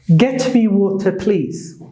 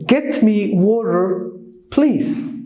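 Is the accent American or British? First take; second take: British; American. First: It is said in a British accent. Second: It is said in an American accent. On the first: "That is the British English" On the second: "So let's look at the American one"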